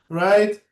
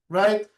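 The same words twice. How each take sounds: Both takes have the same delivery.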